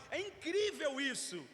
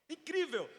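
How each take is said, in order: First: Said in the usual way. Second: "Incrível" said higher and a bit louder; emphatic repeat. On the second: Shown as a demonstration. Preacher repeating "Incrível" to the congregation, emphatic. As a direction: land hard on "Incrível", falling at the end.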